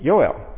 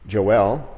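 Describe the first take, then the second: First: The name is said in a Hebrew way. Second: The name is said in an English way. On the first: "if you were in Israel, it'd be Yoel, because there's no J" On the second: "A more correct pronunciation that English people will say"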